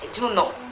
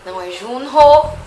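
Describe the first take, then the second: First: The h sound in the middle is dropped. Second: The h sound in the middle is pronounced. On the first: The speaker calls it right. "É como se o H não existisse" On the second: The speaker calls it wrong.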